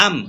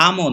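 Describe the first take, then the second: First: আম stopped on the m; closed jazm ending. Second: আমও with an extra vowel after the m; wrong trailing vowel. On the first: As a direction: close আম on m with no vowel after it. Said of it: "এটা হচ্ছে জজমের উচ্চারণ". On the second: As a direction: let the m of আমও release into an "o". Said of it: "আমও না, আম". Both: Shown as a demonstration.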